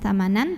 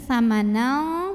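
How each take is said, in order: First: The final n is pronounced clearly. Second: The final nasal is hidden, like a thick ng. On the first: The speaker calls it wrong. "bukan samanan" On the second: The speaker calls it right. "bunyinya ang ya, dan tebal karena qaf huruf tebal"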